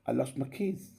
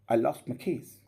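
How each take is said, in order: First: The vowel in 'I' is kept short. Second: The vowel in 'I' is kept short.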